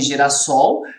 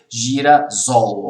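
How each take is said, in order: First: The middle consonant is a hissing S sound. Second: The middle consonant is a buzzing Z sound. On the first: The speaker calls it right. "nós colocamos o S em girassol" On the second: The speaker calls it wrong. "ficaria com o som de Z"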